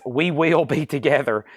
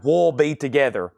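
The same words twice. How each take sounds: First: "We Will" as two separate words; careful full form. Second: "We'll" leaning toward "wool", Southern style; Southern contraction of "We'll", run into one syllable; Southern accent. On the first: Shown as a demonstration. Auctioneer correcting the song title for a viewer, "We Will" said in full. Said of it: "That is my Southern accent". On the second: Real, not acted. Auctioneer reading a song title in Southern accent, "We'll" like "wool". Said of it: "That is my Southern accent at its best".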